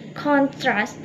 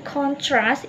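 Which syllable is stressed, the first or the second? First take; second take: first; second. First: The stress is on the first syllable. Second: The stress is on the second syllable. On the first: It is used as a noun. "kalau misalnya kita menekan di awal" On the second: It is used as a verb. "kalau kita menekan di akhir"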